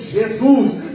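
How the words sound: It is said with a Brazilian Portuguese accent. "nós brasileiros dizemos"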